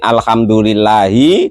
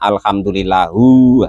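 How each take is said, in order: First: The word ends with an 'i' vowel. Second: The word ends with a 'u' vowel. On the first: The speaker calls it right. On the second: The speaker calls it wrong. "dibaca alhamdulillahu. Itu enggak boleh"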